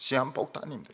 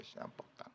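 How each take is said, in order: First: Said in the usual way. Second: 시한폭탄 whispered, unvoiced and hushed; whispered echo. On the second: Shown as a demonstration. Pastor to congregation, hushed whispered echo of the warning. Repeats word then whispers it.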